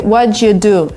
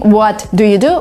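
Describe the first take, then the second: First: The t and d merge into a ch sound. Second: The t and d are said separately. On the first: The speaker calls it right. "we say what you do. So there is a sound ch" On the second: The speaker calls it wrong. "Instead of saying"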